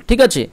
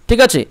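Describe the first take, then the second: The two takes are said the same way.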